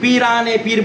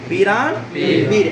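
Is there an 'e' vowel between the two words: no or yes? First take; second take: yes; no. First: An 'e' vowel links the two words. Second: The two words join with no linking vowel. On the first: The speaker calls it wrong. "বলা শুদ্ধ হবে না এটা ভুল" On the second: The speaker calls it right. "এটা হবে পীরান পীর"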